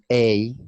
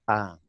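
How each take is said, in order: First: "A" as the long letter name, ay; article as "ay". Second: "A" as a plain open ah; article as "ah". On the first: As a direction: say "A" loudly as a drawn-out ay. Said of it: "But another say". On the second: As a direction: say "A" like ah, without a glide. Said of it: "another say". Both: Retold or imitated.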